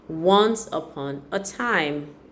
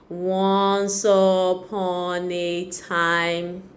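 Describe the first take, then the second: First: It is read at a smooth, natural speed. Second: It is read at an unnatural, halting speed. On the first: The reader is fluent. The speaker calls it right. "should be able to read at the right speed" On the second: The reader is not yet fluent. The speaker calls it wrong. "that child is still a work in progress"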